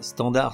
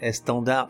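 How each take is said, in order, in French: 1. Le mot commence directement par le son s. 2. Le mot commence par un son e avant le s. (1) "On ne dit pas" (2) "on dit"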